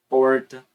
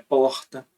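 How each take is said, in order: First: The R curls back, a retroflex sound. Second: The R is a breathy fricative sound. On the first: "Você tem o retroflexo" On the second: "Você tem o é, que é o que eu uso"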